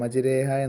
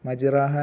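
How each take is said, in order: First: The vowel after the r is an 'e'. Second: The vowel after the r is an open 'a'. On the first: The speaker calls it right. "എന്നോതൂലേ? അങ്ങനെ ഏകാര സ്വരത്തിൽ ഉച്ചരിക്കുന്നതിന്" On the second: The speaker calls it wrong. "എന്നല്ലല്ലോ ഓത്"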